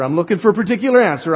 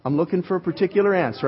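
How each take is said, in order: First: Louder, pressing the question harder; insistent repeat. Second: Said in the usual way. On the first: Real, not acted. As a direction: push the room for the answer. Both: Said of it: "I'm hunting for a particular answer".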